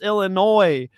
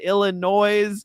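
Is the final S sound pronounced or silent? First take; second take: silent; pronounced. First: The final S is silent. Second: The final S is pronounced. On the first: The speaker calls it right. "it's Illinois" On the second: The speaker calls it wrong. "You don't say Illinois"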